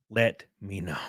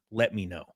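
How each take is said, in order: First: A hushed, secretive whisper. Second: Said in the usual way. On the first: Shown as a demonstration. Streamer whispers his sponsor ask to the viewers, hushed. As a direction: lean in and breathe it like a secret.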